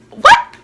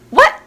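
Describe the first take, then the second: First: Very high, loud disbelieving what; stunned shriek. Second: Sudden high, loud what; shocked what. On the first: Still reeling from Dad's joke, high shrieked what. Repeats shocked reaction louder. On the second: Reacting to Dad's joke with a high shocked what. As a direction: caught off guard, squeak it out. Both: Real, not acted.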